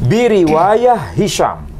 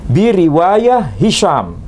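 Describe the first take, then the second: No difference in how they are said.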